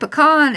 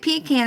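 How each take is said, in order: First: It is said the Texas way. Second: It is said the East Coast way.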